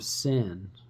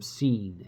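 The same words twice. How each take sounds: First: The name is said with an English pronunciation. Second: The name is said with a non-English pronunciation.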